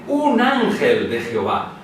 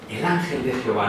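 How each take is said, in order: First: "un" slow and weighted, falling; stress on un. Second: Said in the usual way. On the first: Shown as a demonstration. Preacher contrasting the wording for the congregation, stressing un. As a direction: lean hard on "un ángel". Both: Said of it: "el texto no dice".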